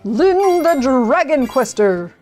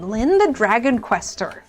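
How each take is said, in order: First: It is said in a big, robust voice. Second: It is said in a plain everyday voice.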